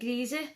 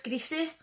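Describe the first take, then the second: First: The word is said in a local pronunciation. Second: The word is said in a standard pronunciation.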